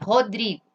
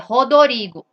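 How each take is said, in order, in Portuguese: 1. O nome é pronunciado com sotaque do português brasileiro. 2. O nome é pronunciado com sotaque japonês. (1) "Veja esse nome" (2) "No Japão é"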